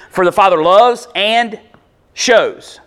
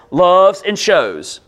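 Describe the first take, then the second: First: Loves and shows louder and weighted; stressing loves and shows. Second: Loves and shows each pressed out slowly; stressing the verbs. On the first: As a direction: press on loves, then shows. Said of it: "See it?". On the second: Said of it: "two verbs in that sentence". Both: Shown as a demonstration.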